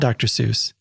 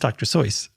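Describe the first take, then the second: First: The name does not rhyme with voice. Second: The name rhymes with the word voice. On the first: The speaker calls it wrong. "It's not Doctor Seuss" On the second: The speaker calls it right. "it's supposed to rhyme with voice"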